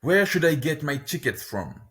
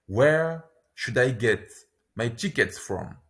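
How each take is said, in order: First: Said in the usual way. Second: Where should I get, pause, my tickets from; slow, in two chunks. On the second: Shown as a demonstration. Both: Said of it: "lesson repeats phrase twice".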